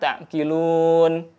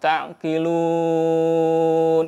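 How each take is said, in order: First: The stretched vowel is held for two counts. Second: The stretched vowel is held for six counts. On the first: "boleh dua harokat" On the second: "boleh juga enam harokat"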